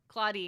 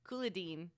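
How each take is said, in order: First: The name is said with two syllables. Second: The name is said with three syllables. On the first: The speaker calls it right. "Claudine is how is how they say it" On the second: The speaker calls it wrong. "I always thought it was three syllables"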